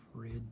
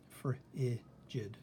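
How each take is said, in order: First: "Frigid" split as "frij", long pause, "id"; "Frigid" in slow pieces, ending on a separate "id"; broken after the G. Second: "Frigid" split as "fri", pause, "jid"; "Frigid" in slow pieces, G starting the last syllable; broken before the G. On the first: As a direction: sound out "Frigid" with the G closing the first syllable. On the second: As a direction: sound out "Frigid" with the first syllable left open. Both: Shown as a demonstration. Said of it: "gonna be here or here".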